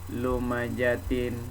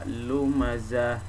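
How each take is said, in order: First: The word ends with a 'tin' sound. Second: The word ends with an 'h' sound. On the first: The speaker calls it wrong. "jangan dibaca lumajatin" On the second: The speaker calls it right. "bunyinya berubah menjadi bunyi ha, dibaca lumazah"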